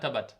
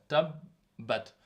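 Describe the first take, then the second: First: The b sound is short, single. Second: The b sound is held long, doubled. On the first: The speaker calls it wrong. "On ne dit pas tabat" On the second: The speaker calls it right. "il faut le dire correctement avec la shadda"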